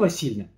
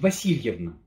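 First: The middle syllables of the name are reduced. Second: Every syllable of the name is said in full. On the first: It is ordinary everyday speech. "Обычно мы говорим Татьяна Васильевна, и это правильно" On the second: It is official, formal speech. "Мы же не проговариваем обычно Васильевна. Это только в официальной речи"

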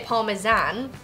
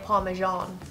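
First: It is said in the speaker's own non-American accent. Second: It is said the way Americans say it.

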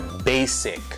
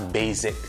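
First: The middle consonant is a hissing S sound. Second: The middle consonant is a buzzing Z sound. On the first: The speaker calls it right. "É basic" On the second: The speaker calls it wrong. "nada de falar basic"

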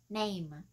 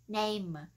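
The two takes are said the same way.

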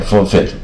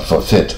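First: The stress is on the first syllable. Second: The stress is on the second syllable. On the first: It is used as a noun. "名词是念forfeit" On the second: It is used as a verb. "动词啊一般念啊forfeit"

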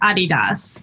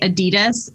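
First: It is said in the original, founder-name way. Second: It is said in the common American way. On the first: This is the technically correct form from the founder's name. "the technical pronunciation is Adidas because mm-hmm. it's the name of our founder" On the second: This is the form commonly used in America. "in America, we say Adidas"

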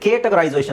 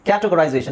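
First: The first syllable sounds like 'kay'. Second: The first syllable sounds like 'ka'. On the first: The speaker calls it wrong. "ನಾವು ಇಲ್ಲಿ cut ಮಾಡಿದ್ರೆ ಕೆ ಆಗುತ್ತೆ" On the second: The speaker calls it right. "So ಇಲ್ಲಿ cut ಮಾಡಬೇಕು"

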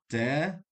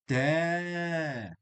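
First: The vowel is kept short. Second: The vowel is held long. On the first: The speaker calls it wrong. "not تا" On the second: The speaker calls it right. "It will be تا a little bit longer"

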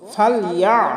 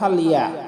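First: The throat sound is pressed from mid-throat. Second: The throat sound is plain without pressure. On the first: The speaker calls it right. "হলকের মধ্যখান থেকে চাপ দিয়ে উচ্চারণ করব" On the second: The speaker calls it wrong. "আমরা বলবো না"

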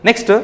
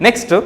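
Both takes have the same delivery.

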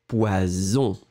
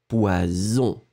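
No difference in how they are said.

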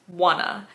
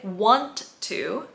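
First: The words blend into one reduced form. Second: Both words are said separately and fully. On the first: "she says wanna" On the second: "She doesn't say want to"

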